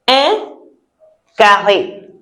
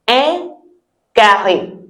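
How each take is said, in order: The two takes are said the same way.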